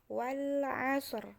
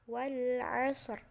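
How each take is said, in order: Both takes have the same delivery.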